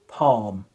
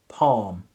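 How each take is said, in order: No difference in how they are said.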